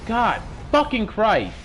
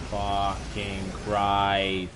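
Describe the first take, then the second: First: High, loud and slow, hitting fucking; furious curse. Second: A slow, stretched curse, fucking Christ dragged out; drawn-out groan. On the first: Swearing after the game goes wrong, slow furious shout. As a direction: drag each word out in rage. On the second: Groaning to himself after losing again, slow dragged curse. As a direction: let it sink out of you as a groan. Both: Real, not acted.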